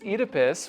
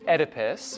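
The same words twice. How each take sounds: First: The name is said with an English pronunciation. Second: The name is said with an American pronunciation. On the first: The speaker calls it right. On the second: The speaker calls it wrong.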